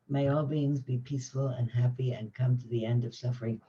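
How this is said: It is said slowly and sincerely, with warm feeling. The speaker truly means the words, like a prayer. The speaker calls it right. "and felt it in myself"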